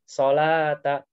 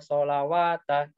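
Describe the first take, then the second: First: The word is said without a w sound. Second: The word is said with a w sound. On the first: The speaker calls it right. "kita biasanya ambil yang berdirinya. Solata gitu" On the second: The speaker calls it wrong. "wanya ini nggak dibaca wawu ya"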